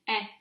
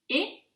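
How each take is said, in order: First: "est" as an open è, like eh; open è sound. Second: "et" as a closed é, like ay; closed é sound. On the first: Teacher contrasts two accents for students, open è on "est". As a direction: isolate "est" with the open grave-accent vowel. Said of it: "accent grave". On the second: Teacher contrasts two accents for students, closed é on "et". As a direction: isolate "et" with the tight acute-accent vowel. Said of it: "that is the difference of pronunciation between". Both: Shown as a demonstration.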